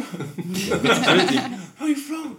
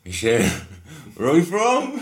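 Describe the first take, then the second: First: Very slow, high, laughing call; slow drawn-out call. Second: High, loud call into the dark. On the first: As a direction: stretch each word as you call. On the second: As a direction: call out to someone unseen. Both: Retold or imitated. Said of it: "So I was like".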